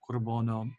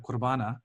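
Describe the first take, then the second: First: The word ends with an 'o' sound. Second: The word ends with an 'a' sound. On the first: This is the West Syriac form. "In West Syriac, most of the endings are ending in O" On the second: This is the East Syriac form. "sometimes when people say the Qurbana"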